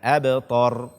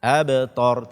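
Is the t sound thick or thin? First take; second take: thick; thick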